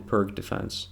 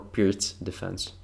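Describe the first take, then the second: First: The name is pronounced in an English way. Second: The name is pronounced in a Slavic way.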